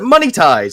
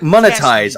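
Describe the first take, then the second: First: The word starts like 'money' then 'ties'. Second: The word starts with a short 'mon' sound.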